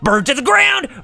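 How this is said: It is shouted in a strained Flame Hyenard voice.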